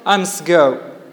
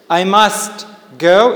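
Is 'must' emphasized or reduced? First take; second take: reduced; emphasized. First: 'Must' is said in its weak, reduced form. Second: 'Must' is said in its full, emphasized form.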